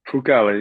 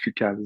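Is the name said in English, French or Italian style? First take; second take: Italian; French. First: The name is said with Italian pronunciation. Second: The name is said with French pronunciation. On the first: This is the family's heritage pronunciation. "Italian, so you always got to put a little spice to it" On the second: This is how it was said growing up in Quebec. "in French, it was always Foucault"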